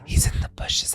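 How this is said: It is said in a quiet whisper. The speaker calls it right. "it was in a whisper"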